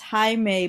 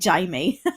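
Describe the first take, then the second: First: The name begins with an H sound. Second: The name begins with a J sound. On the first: "it's pronounced Jaime" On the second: "If you want the English version of Jaime, it's Jaime. Jaime. You pronounce a J"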